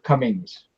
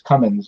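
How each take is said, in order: First: The name ends with an 'ng' sound. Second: The name ends with a plain 'n' sound. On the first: The speaker calls it wrong. "everybody always want to call her Cummings" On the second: The speaker calls it right. "there's no G on it; it's Cummins"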